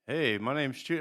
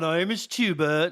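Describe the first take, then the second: First: It is said in a plain, normal voice. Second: It is said in a British-sounding accent.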